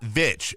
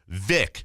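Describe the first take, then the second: First: It ends with a ch sound. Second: It ends with a hard k sound. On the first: The speaker calls it wrong. "Not Vitch, V I T C H" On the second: The speaker calls it right. "V I C K"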